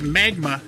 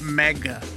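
First: The middle has a g followed by m. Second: The middle has only a g sound. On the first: The speaker calls it right. "It's magma" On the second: The speaker calls it wrong. "not magga"

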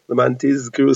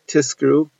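First: The consonant is a clear voiced z sound. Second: The consonant is a voiceless s sound. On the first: It means you should remember. The speaker calls it right. "to pronounce the zayin of lamantizkru" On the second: It means you should be rewarded. The speaker calls it wrong. "so it shouldn't sound like tiskru"

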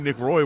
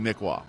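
First: The name ends with an 'oy' sound. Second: The name ends with an 'aw' sound. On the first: This is how most people say the name. The speaker calls it wrong. "I don't think it's a huge problem to say Nick Roy" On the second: This is how the name is supposed to be said. The speaker calls it right. "I do think it's supposed to be Nick Waugh"

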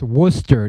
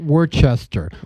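First: The name is said the local Boston way. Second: The name is said an outsider's way. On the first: The speaker calls it right. "it's pronounced Worcester" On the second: The speaker calls it wrong. "not Worcester"

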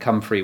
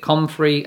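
First: The first vowel is a u as in cup. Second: The first vowel is an o as in hot. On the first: "Kathy's way of saying comfrey, which is entirely different, making the O a U" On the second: "the normal way that other people in the world say it and how it's spelt"

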